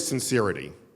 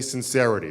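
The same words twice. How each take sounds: First: The vowel stays as in 'sincere'. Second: The vowel shifts away from the 'sincere' vowel. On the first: The speaker calls it wrong. "You don't say sincerity" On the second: The speaker calls it right. "You say sincerity. The word sincere becomes sincerity"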